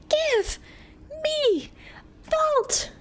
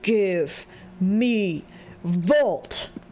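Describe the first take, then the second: First: It is said in a higher pitched voice. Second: It is said in a lower, normal pitch.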